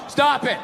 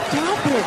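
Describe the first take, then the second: First: It is read out flatly, without feeling. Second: It is said in a playful, teasing way.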